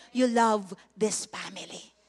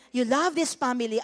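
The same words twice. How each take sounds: First: Slow, low, prayerful line. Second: LOVE stressed, a bit louder, to the church; emphatic repeat. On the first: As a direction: linger on it as if praying to God. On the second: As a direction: drive it home to the listeners. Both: Shown as a demonstration.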